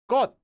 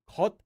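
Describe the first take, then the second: First: The first consonant is a doubled, tense sound. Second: The first consonant is a plain k sound. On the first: The speaker calls it right. "it actually becomes a double consonant when you pronounce it" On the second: The speaker calls it wrong. "So not kot"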